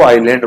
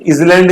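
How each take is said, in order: First: "आइलैंड" as eye-land, s silent; correct pronunciation. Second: "इसलैंड" with the silent s sounded; mispronunciation demo. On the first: Teacher correcting the reading of island, silent-s pronunciation. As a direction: drop the s, say "आइलैंड". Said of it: "उसको आइलैंड बोलेंगे". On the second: Teacher showing wrong reading of island, sounded s. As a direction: say "इसलैंड" as is-land, s voiced in. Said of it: "इसलैंड नहीं बोलेंगे". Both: Shown as a demonstration.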